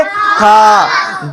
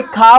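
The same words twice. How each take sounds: First: खा with a very long "aa"; खा, stretched out for the class to copy; drawn-out vowel. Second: Said in the usual way. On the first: Shown as a demonstration. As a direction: hold the vowel of खा. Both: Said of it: "थोड़ा खींच कर बोलेंगे".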